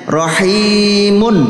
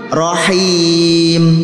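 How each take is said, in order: First: The word ends with a vowel and n. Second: The word ends on a bare consonant. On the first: The reader continues without stopping. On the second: The reader stops at this word.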